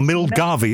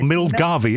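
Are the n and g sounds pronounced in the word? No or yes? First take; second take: yes; yes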